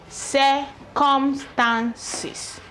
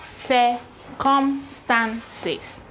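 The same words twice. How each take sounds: The two takes are said the same way.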